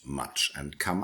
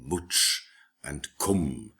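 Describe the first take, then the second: First: The vowels sound like Southern English 'uh'. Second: The vowels sound like Northern English 'oo'. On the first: This is the modern pronunciation. The speaker calls it wrong. "and not much and come" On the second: This is how the older language sounded. The speaker calls it right. "as in Northern English, so you say much and cum"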